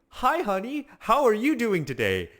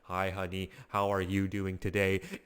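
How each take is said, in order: First: It is said with warm emotion. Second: It is said flatly, without emotion.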